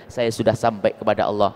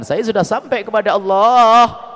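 First: Said in the usual way. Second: Slower, louder proud declaration; louder, slower, self-satisfied boast; boastful claim. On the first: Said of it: "tidak ada satu orang pun yang mengatakan". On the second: Retold or imitated. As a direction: proclaim it like a man sure he has arrived. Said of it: "Di saat orang mengatakan".

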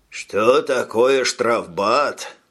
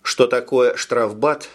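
First: Slow smug "Что такое штрафбат?", drawn out, stress on "Что"; smug repeat. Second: Said in the usual way. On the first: Acted. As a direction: repeat it slowly with a self-satisfied smirk. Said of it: "переспросил ефрейтор и самодовольно ухмыльнулся". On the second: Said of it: "переспросил ефрейтор".

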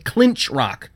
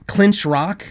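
First: "Clinch Rock" falling, as a statement; firm correction. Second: "Clinch Rock" higher, as a question; disdainful question. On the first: Judith corrects Zoe, "Clinch Rock" stated firmly. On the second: Zoe mocks the name, "Clinch Rock" as a question. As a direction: query "Clinch Rock" with distaste, pitch up. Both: A narrator's reading.

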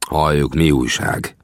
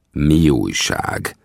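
First: Unfriendly grumble. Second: Very slow, pointed irritated repeat; angry repeat. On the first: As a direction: grumble it slowly and coldly. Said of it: "mordultam rá barátságtalanul". (lassan, barátságtalanul mordulva) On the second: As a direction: drag out "Mi újság?" with real annoyance. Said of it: "most már igazán dühösen". (nagyon lassan, dühösen ismételve) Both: A narrator's reading.

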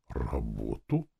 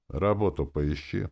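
First: Low, slow rising question; bewildered. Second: Casual, throwaway advice; offhand. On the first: Captain echoes the advice to find work, bewildered. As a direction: echo it slowly, at a loss. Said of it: "переспросил он растерянно". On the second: Lord brushes off the captain with advice, offhand. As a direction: toss it out carelessly. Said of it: "посоветовал я небрежно". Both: A narrator's reading.

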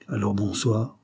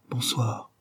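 First: Said in the usual way. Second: "Bonsoir" softer and falling; soft reply. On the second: Acted. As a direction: breathe "Bonsoir" gently, trailing down. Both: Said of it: "Elle répondit d'un souffle".

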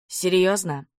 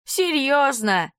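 First: Said in the usual way. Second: Slow, high, drawn-out mock disbelief; mocking echo. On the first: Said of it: "мои мысли". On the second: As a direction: stretch it out teasingly. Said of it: "озвучивает за меня мои мысли Вадим".

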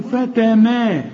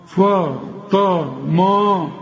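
First: "فتما" slow and higher, thin "fateme" vowels; slow, light "فتما", raised pitch; correct light letters. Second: "فتما" dragged syllable by syllable, thick dark vowels; slow "fo, to, mo" for "فتما"; wrong heavy letters. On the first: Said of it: "قل لي فتما". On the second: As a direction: mistakenly darken every letter of "فتما", very slow. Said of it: "ما انت بتقول لي فتما". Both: Shown as a demonstration.

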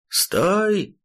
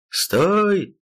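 First: High yelled command from below; enemy spotted shout. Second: Sharp high yelled command; enemy spotted shout. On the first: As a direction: shout "Стой!" up at him, desperate. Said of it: "крикнул уже с земли противник". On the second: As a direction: bark "Стой!" to halt him. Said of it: "крикнул противник". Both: Acted.

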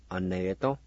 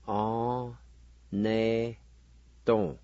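First: "or, ne, to" joined as one word; whole-word pronunciation. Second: "or, ne, to" in drawn-out, separate syllables; syllable-by-syllable pronunciation. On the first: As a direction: run "or, ne, to" together without pauses. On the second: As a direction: sound out "or, ne, to", pausing after each. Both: Shown as a demonstration. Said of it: "now pronounce these words".

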